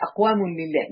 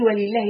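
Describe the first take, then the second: First: أقوام لله said lower, as the rejected word order; teacher contrasting the wrong order أقوام لله, a touch lower; wrong order, lighter. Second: ولله said first and slightly set apart, stressed as the opening word; teacher showing that ولله comes before أقوام, with weight on ولله. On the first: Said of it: "مش". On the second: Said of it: "كفاية إنه قال ولله الأول". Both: Shown as a demonstration.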